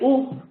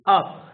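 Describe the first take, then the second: First: The vowel is a rounded 'oo' sound. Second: The vowel is an open 'uh' sound. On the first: The speaker calls it wrong. "You don't say oop" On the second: The speaker calls it right. "you say up"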